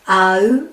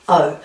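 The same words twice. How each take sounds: First: The two vowels are said slowly and apart. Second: The two vowels are said quickly and blended. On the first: "This is my A, and this is my U. We're going O" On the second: "It speeds up to O"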